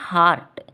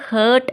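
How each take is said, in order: First: The vowel is an open 'ah' as in car. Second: The vowel is a central 'er' as in her. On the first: The speaker calls it right. "ശരിയായ pronunciation ഹാർട്ട് എന്നാണ്" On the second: The speaker calls it wrong. "ഹേർട്ട് എന്നല്ല"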